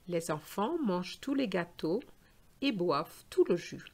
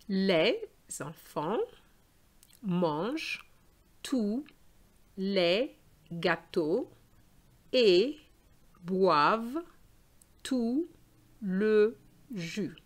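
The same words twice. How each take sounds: First: The sentence is spoken at a faster pace. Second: The sentence is spoken at a slower pace.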